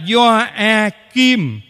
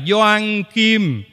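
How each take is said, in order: First: It is said with no n sound before Kim. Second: It is said with an n sound before Kim. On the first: The speaker calls it right. "Đọc là Gioakim" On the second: The speaker calls it wrong. "chứ không phải là Gioan Kim"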